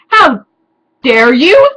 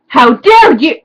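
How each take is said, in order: First: The voice rises at the end, like a question. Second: The voice falls at the end, like an exclamation.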